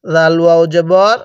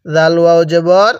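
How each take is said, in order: Both takes have the same delivery.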